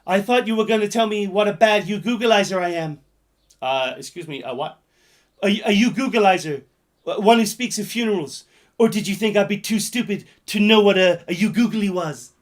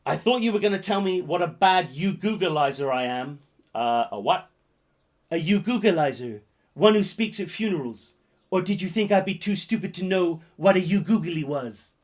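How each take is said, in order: First: Loud, raised movie-line delivery; loud hammed-up quote; shouted film quote. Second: Said in the usual way. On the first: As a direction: belt the quote out in full ham. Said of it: "It goes like this".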